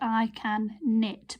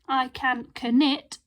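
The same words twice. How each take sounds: First: No K sound is heard before nit. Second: A K sound is heard before nit. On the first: The speaker calls it right. "it's K again" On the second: The speaker calls it wrong. "We don't say I can knit"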